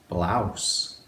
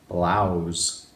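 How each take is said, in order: First: The word ends with an s sound. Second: The word ends with a z sound. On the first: "B, l, ow, s" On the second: "If we want to sound it a little bit different, ... B, l, ow, z"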